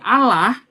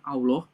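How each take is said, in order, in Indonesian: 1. Bunyi 'l'-nya tipis dan ringan. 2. Bunyi 'l'-nya tebal dan berat. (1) "kalau dibaca sama saudara-saudara Kristen menjadi Allah"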